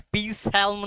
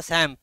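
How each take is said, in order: First: "পি স্যালম" with the P and L sounded; "পি স্যালম" mispronounced as spelt, P-salm; wrong pronunciation. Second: "স্যাম" with P and L silent; psalm said as "স্যাম", no L sound; correct pronunciation. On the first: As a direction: say "পি স্যালম", voicing the initial P and the L. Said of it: "পি স্যালম নয়". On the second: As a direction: say "স্যাম" as sam, dropping P and L. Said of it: "উচ্চারণটা স্যাম". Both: Shown as a demonstration.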